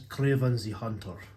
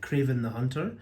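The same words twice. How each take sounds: First: It is said in a put-on foreign accent. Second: It is said in his normal accent.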